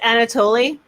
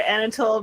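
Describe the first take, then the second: First: The name ends with an extra ee sound. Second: The name ends without an extra ee sound. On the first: The speaker calls it right. "it's it's pronounced Anatoly" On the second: The speaker calls it wrong. "I call her Anatole because I think it's hilarious to mispronounce words"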